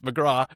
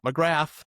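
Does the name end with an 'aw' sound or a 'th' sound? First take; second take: aw; th. First: The name ends with an open 'aw' sound. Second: The name ends with a 'th' sound. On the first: The speaker calls it right. "It's the right the right way to pronounce her last name" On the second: The speaker calls it wrong. "it's not McGrath"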